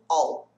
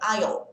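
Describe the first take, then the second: First: It is reduced to a short sound like "all". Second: It is said in full, like "aisle". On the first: The word joins the words after it. "ele vai reduzir um pouquinho mais... eu já respondo all" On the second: The word stands on its own. "se eu fosse trabalhar o som separado dele, seria aisle"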